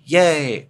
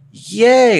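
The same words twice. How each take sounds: First: It is said at normal volume. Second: It is said a little louder.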